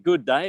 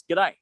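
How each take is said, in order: First: Said in the usual way. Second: "g'day" clipped into one quick Aussie word; Australian g'day. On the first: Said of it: "Instead of". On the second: Shown as a demonstration. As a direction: squash "g'day" together the Australian way.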